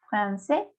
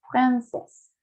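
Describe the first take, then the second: First: "francés" as masculine français, fran-say; rising "francés" ending on the vowel; silent final S. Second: "francés" as feminine française, fran-sess; "francés" with the final consonant pronounced; sounded final S. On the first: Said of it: "no se menciona". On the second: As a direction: close "francés" on an audible S. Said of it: "Porque tengo la E final". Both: Shown as a demonstration.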